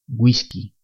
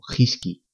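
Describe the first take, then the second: First: The word starts with a gw sound. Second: The word starts with a rough h. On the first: The speaker calls it right. "se pronuncian we y wi" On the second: The speaker calls it wrong. "Si no ponemos ni la diéresis ni la U, leemos"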